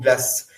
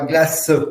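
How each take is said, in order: First: It is said in a Belgian accent. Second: It is said in a Southern French accent. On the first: "nous en tant que Belges, en tant, les Parisiens et autres, disent plutôt glace" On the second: "ça c'est plutôt dans l'accent du Sud"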